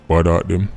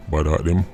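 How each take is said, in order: Both takes have the same delivery.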